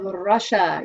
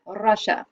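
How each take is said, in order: First: Said in the usual way. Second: Russia said lightly with a Russian accent, rolled R. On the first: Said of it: "You have to say it with a". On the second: Shown as a demonstration. Music teacher showing the kids how Russians say Russia, light Russian accent. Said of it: "You have to say it with a, an accent".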